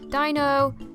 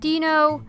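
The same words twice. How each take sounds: First: The first part sounds like German 'ein'. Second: The first part does not sound like German 'ein'. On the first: The speaker calls it right. "But the actual pronunciations are" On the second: The speaker calls it wrong. "The most common pronunciations of these three I hear are"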